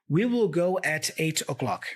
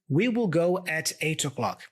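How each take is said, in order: First: We will is said in full, word by word. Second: The same.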